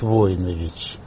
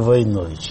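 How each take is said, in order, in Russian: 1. Ударение на первом слоге. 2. Ударение на втором слоге. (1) "там, где эта фамилия родилась, то есть в Сербии ... там говорят Войнович" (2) "В России, в Советском Союзе всегда говорили Войнович. И мой отец боролся с этим"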